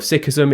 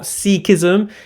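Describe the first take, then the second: First: The first syllable has a short vowel, like 'sick'. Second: The first syllable has a long vowel, like 'seek'. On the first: The speaker calls it right. "which is correct pronunciation of Sikhism" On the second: The speaker calls it wrong. "It is not Sikhism. ... not like let's go hide and play Sikh"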